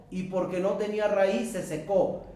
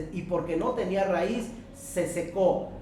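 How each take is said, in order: Both takes have the same delivery.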